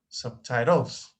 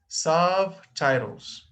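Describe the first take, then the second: First: The stress is on a later syllable. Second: The stress is on the first syllable. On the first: The speaker calls it wrong. "not subtitles" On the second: The speaker calls it right. "the first"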